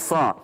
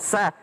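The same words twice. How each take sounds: First: The s sound is thick and heavy. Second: The s sound is thin and light. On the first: The speaker calls it right. "Sad tebal sa" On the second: The speaker calls it wrong. "Jangan sa"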